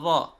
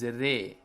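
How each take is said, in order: First: The vowel after r is an open a. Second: The vowel after r is a mid e. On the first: The speaker calls it wrong. "The sound of fatha with ra is ra" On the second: The speaker calls it right. "Neither it is ra nor it is ri. It is re"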